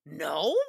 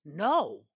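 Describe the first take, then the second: First: Incredulous "No?" swung up into a question; shocked questioning echo. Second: Said in the usual way. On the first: Retold or imitated. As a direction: echo the no in disbelief. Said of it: "we get the shock of the century". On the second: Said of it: "Jameson says".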